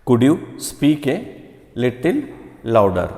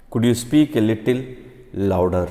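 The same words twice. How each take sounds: First: Higher rising request. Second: Said in the usual way. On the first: Shown as a demonstration. Teacher demonstrates asking to speak up, higher rising. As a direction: lift the pitch and push the last word. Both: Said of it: "Could you speak up, please?".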